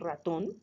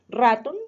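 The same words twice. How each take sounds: First: The stress is on the last syllable. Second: The stress is on the first syllable. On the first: The speaker calls it right. "sino ratón" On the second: The speaker calls it wrong. "no decimos ratón"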